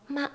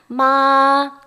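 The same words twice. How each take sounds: First: The syllable is cut short, laughing shyly. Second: The syllable is held long and level. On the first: The speaker calls it wrong. "쑥스러워서 마. 웃고 짧게 하시면 곤란합니다" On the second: The speaker calls it right. "길게 하세요"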